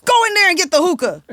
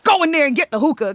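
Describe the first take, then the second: First: Louder angry order. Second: Angry order. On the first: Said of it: "this is obnoxious behavior". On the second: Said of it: "This dude storms out the booth". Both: Retold or imitated.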